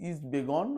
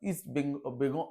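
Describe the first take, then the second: First: The second word is said without the ng sound. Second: The second word is said with the ng sound. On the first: The speaker calls it wrong. "নিন্দনীয় উচ্চারণে" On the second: The speaker calls it right. "অর্থাৎ east বেঙ্গল"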